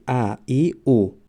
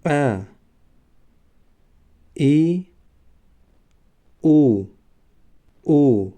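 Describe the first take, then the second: First: Said in the usual way. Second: Demonstrating the three hamza vowels one by one; hamza vowel sounds. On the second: Shown as a demonstration. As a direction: show the glottal onset on "ا" "ای" "او". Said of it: "هی ملایم به مانند هی که در زبان تاجیکی است".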